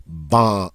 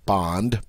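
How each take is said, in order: First: "Bon" as bond stopped just before the N; nasal vowel. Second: Said in the usual way. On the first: Shown as a demonstration. Teacher demonstrates cutting bond short, nasal vowel before the N. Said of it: "stop just before you get to the N". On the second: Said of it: "Start to say bond".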